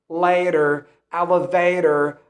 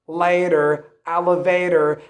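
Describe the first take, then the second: No difference in how they are said.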